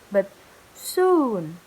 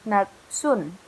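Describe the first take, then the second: First: The vowel is held long. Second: The vowel is cut short. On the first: The speaker calls it right. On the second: The speaker calls it wrong.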